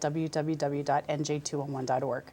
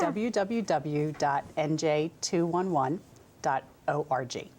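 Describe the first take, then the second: First: The address is said quickly. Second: The address is said slowly. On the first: The speaker calls it wrong. "Did I say that fast?" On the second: The speaker calls it right. "you might want to say that slower"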